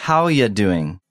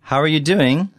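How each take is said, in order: First: "are you" squashed into "ya"; casual reduced form. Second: "are you" kept as words in "How are you doing"; full question form. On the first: Teacher shows casual speech, "are you" reduced to "ya". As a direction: run "How ya doing" together loosely. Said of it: "when spoken casually". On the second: Teacher shows the written form, "are you" in full. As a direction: say "are" before "you", not yet reduced. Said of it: "sounds more like". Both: Shown as a demonstration.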